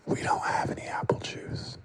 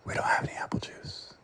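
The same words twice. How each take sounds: First: Shout-whisper, pushed hard on don't; a harsh stage whisper in his face; whispered shout, stress on don't; forceful whisper. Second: Hushed, unvoiced whisper, flat and cold. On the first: Retold or imitated. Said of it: "I whispered at him right there in his face". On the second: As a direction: whisper it right in his face. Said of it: "I whispered at him".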